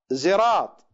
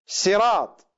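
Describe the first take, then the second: First: زراط with a z at the start; variant reading. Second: Said in the usual way. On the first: Shown as a demonstration. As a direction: say زراط with a buzzing z. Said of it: "صراط من أو زراط من". (زراط بالزاي) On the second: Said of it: "يقرؤونها".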